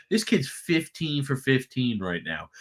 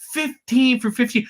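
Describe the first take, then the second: First: Said in the usual way. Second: Both fifteens punched higher and louder, slowly; slow, raised "Fifteen for fifteen" stressing each fifteen; excited emphasis. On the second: Real, not acted. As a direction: hammer home "Fifteen for fifteen" in amazement. Repeats stat in disbelief.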